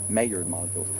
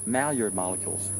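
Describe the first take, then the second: The two takes are said the same way.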